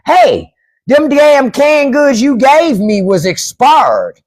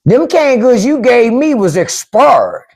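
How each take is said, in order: First: Slow, drawn-out Southern complaint, pitched higher; Southern accent. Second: Slow, higher Southern drawl complaint; Southern accent. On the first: A mock neighbor complaining about expired canned goods in a Southern accent. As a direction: whine it like an old Southern man. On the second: Repeating the neighbor's complaint in a Southern accent. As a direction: drawl it like a country grandpa. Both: Retold or imitated. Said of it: "that's how they say it down south".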